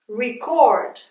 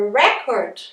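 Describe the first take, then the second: First: "record" as ri-CORD, the verb; stress on second syllable. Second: "record" as REC-ord, the noun; stress on first syllable. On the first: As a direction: say "record" with the final -CORD strong. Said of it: "essa é a sílaba mais forte". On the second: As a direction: say "record" with REC strong and slow. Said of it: "essa sílaba mais forte". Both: Shown as a demonstration.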